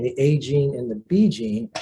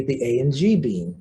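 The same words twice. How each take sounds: First: Said in the usual way. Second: "A and G gene" in place of "A gene and the B gene"; garbled gene names. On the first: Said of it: "I say the A and G gene". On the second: Shown as a demonstration. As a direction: blur "A and G gene" as one muddled name. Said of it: "Instead of these saying the A gene and the B gene".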